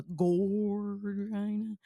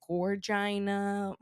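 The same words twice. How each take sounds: First: "gorgina" with a long, drawn-out "gor"; emphasis on GOR. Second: "Gorgina" stretched slow, evenly voiced; drawn-out word. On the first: Host showing where emphasis can go, long stressed GOR in "gorgina". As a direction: lean hard and slow on the first syllable of "gorgina". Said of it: "emphasis on the gorgina". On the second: Host showing co-host how to use it, "Gorgina" drawn out. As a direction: draw out every syllable of "Gorgina". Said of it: "if you wanna be like". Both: Shown as a demonstration.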